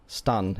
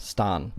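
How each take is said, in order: First: Stun with a short, quick vowel. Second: Stan as "staahn", the ah held long; elongated vowel. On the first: Teacher showing the name without the hyphen, short vowel. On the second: Teacher showing what the hyphen does, elongated vowel. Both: Shown as a demonstration. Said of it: "that just elongates the sound".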